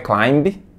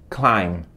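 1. Um som de b é liberado no fim. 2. A palavra termina em m, sem b. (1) "Não é B, não pronuncia a letra B. Não é climb" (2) "e sim climb"

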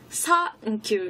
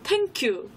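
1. "th"는 "s" 소리처럼 나요. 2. "th"는 "t" 소리처럼 나요. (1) "상큐 이런 식으로 S 발음으로 발음해요" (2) "땡큐 이런 식으로 약간 T 발음처럼 발음하는"

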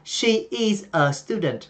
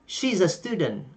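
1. She is được nói thành hai từ đầy đủ. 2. She is được nói rút gọn thành một âm tiết. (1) "Họ không nói là she is a student" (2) "người bản xứ họ sẽ nói là he's a student, she's a student"

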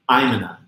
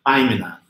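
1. Going to é reduzido e fundido em um só som. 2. Going to é reduzido e fundido em um só som.

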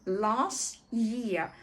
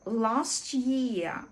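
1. Звук t повністю пропускається. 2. Звук t повністю пропускається.

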